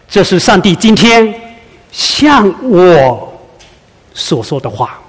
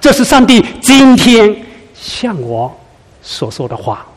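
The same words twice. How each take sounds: First: The word 向我 carries the emphasis. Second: The word 今天 carries the emphasis. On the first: The message is addressed to me personally. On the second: The message is for this very moment.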